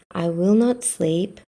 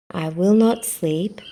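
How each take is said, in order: Both takes have the same delivery.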